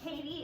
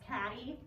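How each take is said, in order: First: The first vowel sounds like the one in 'Kate'. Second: The first vowel sounds like the one in 'cat'. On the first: This is the commonly heard pronunciation. The speaker calls it wrong. "You hear Katie" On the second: This is how the name was really pronounced. The speaker calls it right. "it's actually pronounced Caddy"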